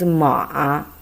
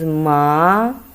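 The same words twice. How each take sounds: First: It is said with the third tone. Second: It is said with the second tone. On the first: It means horse. "The third time is ma" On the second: It means hemp. "the second time is ma"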